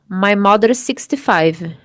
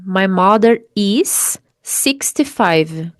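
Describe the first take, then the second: First: The two S sounds merge into one. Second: The two S sounds are said separately. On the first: "Você pode dizer assim, ó / você vai cortar o S da segunda palavra" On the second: "Você não precisa dizer assim"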